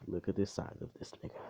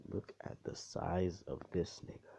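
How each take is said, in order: First: Quick, run-together "look at the size"; rapid first take, no pauses; quick emphatic remark. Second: Spaced-out repeat, SIZE standing out; stress on SIZE. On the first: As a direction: toss the whole line out fast. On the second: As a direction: lean hard on the word "size". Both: Real, not acted. Repeats line for comic emphasis.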